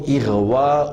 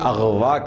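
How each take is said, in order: First: The first vowel is an 'i' sound. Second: The first vowel is an 'a' sound. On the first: The speaker calls it right. "असल में है वो इगवा उन" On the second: The speaker calls it wrong. "लोग कहते हैं अगवा करना"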